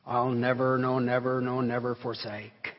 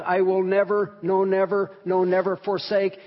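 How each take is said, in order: First: Low, measured reading of the promise; solemn hymn reading. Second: Insistent repeats of "no, never", pitch held up; emphatic, intensified. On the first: Acted. Preacher reading the hymn's last stanza to congregation, low and solemn. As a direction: recite it low and evenly, without pushing. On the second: Shown as a demonstration. Preacher showing the hymn writer's intensified promise, emphatic on every "never". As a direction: drive home each "never" with firm, even force. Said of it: "It is raised to a high level".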